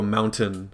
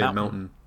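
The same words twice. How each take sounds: First: The T in the middle is clearly pronounced. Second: The T in the middle is dropped. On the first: "I don't go mountain" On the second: "I definitely never say the T"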